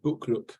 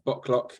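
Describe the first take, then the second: First: The name is said with a Swedish pronunciation. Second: The name is said with an English pronunciation. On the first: "you pronounce it uh, Bokluk, which is live smart in Swedish" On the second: "English people will call us Bocklock"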